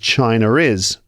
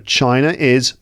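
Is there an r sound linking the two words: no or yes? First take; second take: yes; no. First: An r sound links the two words. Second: The words are joined without an r sound.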